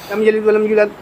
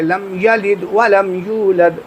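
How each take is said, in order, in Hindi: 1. इसे बहुत तेज़ और जल्दबाज़ी में पढ़ा जाता है। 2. इसे थोड़ा तेज़, फिर भी साफ़ तौर पर पढ़ा जाता है। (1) "लोग बहुत जल्दबाजी में किस तरीके से पढ़ते हैं" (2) "थोड़ा सा और तेज़ अगर पढ़ना है"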